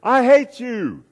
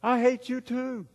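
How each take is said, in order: First: High, loud, drawn-out holler; angry yell. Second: High, slow, distant echo voice. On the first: Angry boy yells at the echoing voice, angry yell. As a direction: shout it high and slow across the canyon. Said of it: "starting to get a little bit angry". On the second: Canyon voice answers the angry boy, distant echo. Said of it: "And the voice said". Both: Acted.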